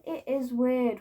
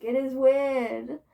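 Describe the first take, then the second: First: Said in the usual way. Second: "It is weird" drawn out slowly, leaning on "weird"; slow it down and press "weird"; emphatic and slow. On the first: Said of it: "and it is weird and cringe". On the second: Shown as a demonstration. Telling furries slowly and firmly that it is weird.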